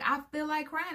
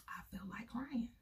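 First: Put-on high, lightly childish "I feel like crying" with a rise on like; little girl's answer. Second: Put-on whispered softly as a child's reason. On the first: Her child self answering the aunt, lightly childlike. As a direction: voice a small girl simply stating it. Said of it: "And I'm like". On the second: Shown as a demonstration. Recalling her childhood self, whispering "I feel like crying". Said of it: "I would cry because".

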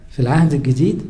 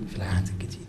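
First: Said in the usual way. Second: في العهد الجديد repeated much lower and softer; hushed echo. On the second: Shown as a demonstration. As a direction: echo the question back almost under your breath. Rhetorical question, then quiet echo.

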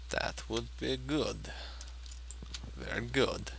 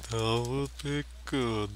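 First: Put-on slow, drowsy Kazakh-accented Borat voice; sleepy Borat impression. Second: Slow, drowsy Borat accent, mock; half-hearted sleepy Borat voice; sleepy Borat impression. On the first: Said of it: "That was a sleepy Borat impression". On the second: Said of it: "sleepy Borat impression".

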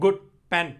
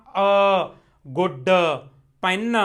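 First: "good pen" lower, with d and n lightly touched; short, unforced ends on "good pen"; light word endings. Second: "a good pen" with the final d and n pressed out; wrong-way demo of "a good pen", heavy last sounds; overpressed word endings. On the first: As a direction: run "good pen" together without pressing the endings. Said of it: "ਹਨਾ, ਬਾਹਲਾ ਨਹੀਂ". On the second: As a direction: separate "a", "good", "pen", each ending dragged into an extra uh. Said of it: "ਮਗਰਲਾ ਦੱਬ ਦੱਬ ਕੇ ਨਹੀਂ ਪੜ੍ਹਨਾ". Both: Shown as a demonstration.

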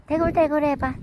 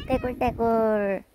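First: 대굴대굴 punched and falling; stress on 대굴대굴. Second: Said in the usual way. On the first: Shown as a demonstration. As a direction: lean on 대굴대굴 with a falling tune.

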